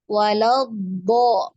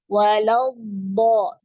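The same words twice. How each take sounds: No difference in how they are said.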